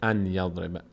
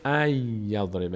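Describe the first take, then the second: First: The n sound is kept before the y. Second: The n sound merges into the following y. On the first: The speaker calls it wrong. "نمیشه ان یضربه" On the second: The speaker calls it right. "نون میشه یا، میشه ای یضربه"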